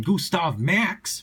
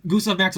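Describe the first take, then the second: First: "Gustav Max" stretched out slowly, pitched up; drawn-out showy name. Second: Said in the usual way. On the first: Real, not acted. Deck presenter announcing a favorite card to viewers, drawn-out and showy. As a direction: draw out "Gustav Max" like a grand title, rising at the end. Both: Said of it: "because I have to say it like that".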